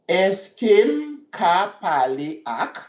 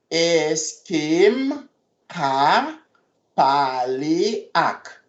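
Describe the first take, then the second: First: Said in the usual way. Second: Est-ce que m ka pale ak said slowly in two parts; slow it down for the class; slow and careful. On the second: Shown as a demonstration.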